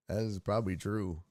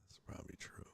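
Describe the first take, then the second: First: Said in the usual way. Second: Whispered "That's probably true". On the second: Real, not acted. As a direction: breathe it out unvoiced. Whispered repeat.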